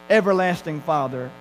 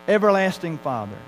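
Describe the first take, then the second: Both takes have the same delivery.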